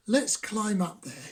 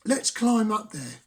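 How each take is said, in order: First: Softer, calmer frog voice. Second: Frog voice. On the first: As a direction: suggest it more quietly. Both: Acted.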